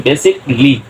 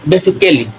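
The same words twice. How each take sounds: First: বেসিকলি with silent a, কলি straight after বেসি; right pronunciation. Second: বেসিক্যালি with the a sounded, ক্যা before লি; mock the common mistake বেসিক্যালি; wrong pronunciation. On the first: Teacher gives students the correct বেসিকলি. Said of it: "হবে বেসিকলি". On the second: Teacher shows students the wrong বেসিক্যালি. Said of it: "না, বেসিক্যালি হবে না". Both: Shown as a demonstration.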